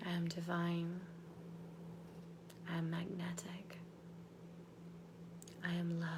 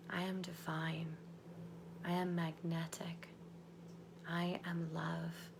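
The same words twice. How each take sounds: First: Soft, lower whisper; whispered affirmations. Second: Soft unvoiced whisper, lower; whispered affirmations. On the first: Acted. Coach repeating affirmations to lock them in, whispered. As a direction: hush each line into place. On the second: Coach leading the group in affirmations, whispered. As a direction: breathe each affirmation slowly.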